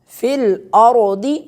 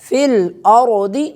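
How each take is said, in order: The two takes are said the same way.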